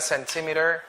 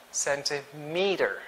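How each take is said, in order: First: Centimeter with a short "mih" as in "sen-TIM-ih-ter"; wrong pronunciation. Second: Centimeter said slowly with a long "MEE" in the middle; correct pronunciation. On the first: Teacher shows kids what to avoid, mispronounced centimeter with short "mih". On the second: Teacher corrects the word, slow centimeter with long "mee". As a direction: say centimeter as "sen-tih-MEE-ter", drawn out. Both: Shown as a demonstration. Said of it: "It's not centimeter".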